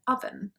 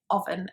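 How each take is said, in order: First: The first vowel sounds like a short A. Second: The first vowel sounds like a full O. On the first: The speaker calls it right. "more of a kind of A sound than an O sound" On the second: The speaker calls it wrong. "they might say oven instead of oven"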